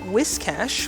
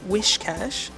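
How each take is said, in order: First: The first part sounds like 'whisk'. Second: The first part sounds like 'wish'. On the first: The speaker calls it right. "which is apparently the appropriate way to pronounce it" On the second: The speaker calls it wrong. "I am always saying Wishcash"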